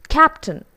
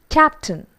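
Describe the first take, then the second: No difference in how they are said.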